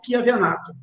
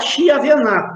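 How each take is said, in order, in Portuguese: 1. O nome começa com um som de 'k'. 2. O nome começa com um som de 'sh'. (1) "mas eu acho que é Kia Venato" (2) "Tem gente que fala Chia Venato"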